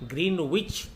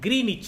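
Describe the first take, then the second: First: The w is sounded and the first vowel is long. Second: The w is silent and the first vowel is long. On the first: "భారతదేశంలో చాలామంది గ్రీన్ విచ్ అని" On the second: "లేదా గ్రీనిచ్ అని పలుకుతుంటారు"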